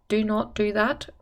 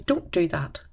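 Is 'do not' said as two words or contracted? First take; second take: two words; contracted. First: Do and not are said as two words. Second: Do and not are squeezed into one syllable. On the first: The speaker calls it wrong. "It's not natural to say that" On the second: The speaker calls it right. "You say don't do that"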